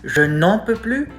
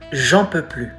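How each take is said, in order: First: The 'ne' particle is fully pronounced. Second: The 'ne' particle is dropped entirely. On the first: "So it goes from" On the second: "the particle ne or an apostrophe is often, if not always, skipped"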